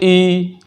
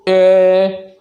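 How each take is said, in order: First: The vowel is a close, short 'ee' sound. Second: The vowel is a mid, 'ay'-like e sound. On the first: This is the proper Arabic way of reading it. The speaker calls it right. "मारूफ" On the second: This is the Urdu-style way of reading it. The speaker calls it wrong. "मजहूल ... उसको बोलते हैं मजहूल। ये गलत है"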